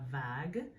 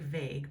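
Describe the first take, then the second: First: It sounds French, with an open 'ah' vowel. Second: It sounds like English 'vague', rhyming with 'plague'. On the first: The speaker calls it right. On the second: The speaker calls it wrong.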